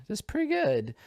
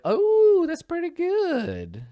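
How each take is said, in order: First: Said in the usual way. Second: Much higher, slow squeal of delight; real delighted surprise; pleasantly surprised. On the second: Real, not acted.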